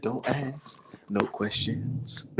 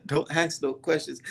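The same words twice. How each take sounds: First: Slow, drawn-out preacher quote; a mild take on the pastor, dragging every word; half-hearted pastor imitation, slow and soft; pastor's words. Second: Said in the usual way. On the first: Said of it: "what the pastor say? He said".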